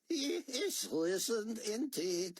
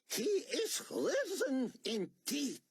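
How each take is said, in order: First: It is mumbled with low energy. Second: It is said with strong energy.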